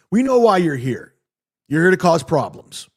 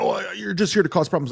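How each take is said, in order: First: Mock accusation, a little raised and firm; lightly acted confrontational retelling; accusing doorman. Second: Mock flustered, higher-pitched stammer at the start; hammed-up fluster. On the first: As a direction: imitate a doorman confronting someone. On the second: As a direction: imitate a rattled man repeating his accusation. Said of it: "he gets all flustered".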